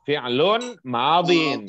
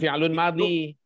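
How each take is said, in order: First: The second word ends with an n sound. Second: The second word ends in a bare vowel. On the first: The speaker calls it right. "Kalau fi'lun harus madin" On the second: The speaker calls it wrong. "Jangan fi'lun madhi"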